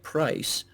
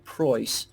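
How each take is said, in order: First: The vowel is said in the speaker's usual way. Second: The vowel is said in an imitated, different way. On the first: This is how the speaker says it. "if I pronounce price like price" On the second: This is how someone else says it. "If somebody else pronounces price like Preuss"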